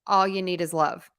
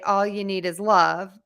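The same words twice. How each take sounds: First: The sounds in the phrase are reduced and run together. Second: Every sound in the phrase is said clearly. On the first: "they pronounce it" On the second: "you should say"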